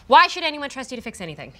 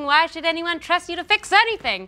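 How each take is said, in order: First: The question is asked in a serious tone. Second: The question is asked in a cheerful tone. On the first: The speaker calls it right. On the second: The speaker calls it wrong.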